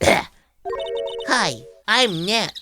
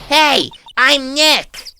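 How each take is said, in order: First: It is said quietly. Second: It is said loudly.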